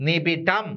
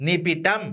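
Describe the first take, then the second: Both takes have the same delivery.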